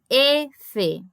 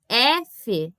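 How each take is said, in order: First: The first vowel is a closed E. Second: The first vowel is an open E. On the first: The speaker calls it right. "é F, tá? Sempre fechado" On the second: The speaker calls it wrong. "Porque não é F"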